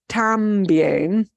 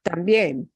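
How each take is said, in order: First: The stress is on the first syllable. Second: The stress is on the last syllable. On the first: The speaker calls it wrong. "we don't pronounce that word también" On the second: The speaker calls it right. "We specifically take that eh vowel, and that gets more punch"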